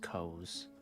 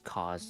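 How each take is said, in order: First: The vowel is not an open 'ah' sound. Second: The vowel is an open 'ah' sound. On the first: "It's off for Lazuli" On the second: "have like the ah sound"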